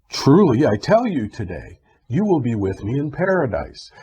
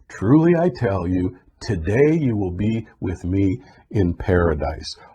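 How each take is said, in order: First: The pause comes right after 'today'. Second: The pause comes right before 'today'.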